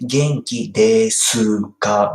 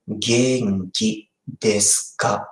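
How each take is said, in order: First: "Genki desu ka" with the u in desu nearly silent; small u. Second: "Genki desu ka" spoken slowly, word by word; slow model. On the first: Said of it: "small U". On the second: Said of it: "pronounce like". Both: Shown as a demonstration.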